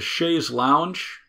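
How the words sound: It is said with an American English pronunciation. "I'm using the American pronunciation"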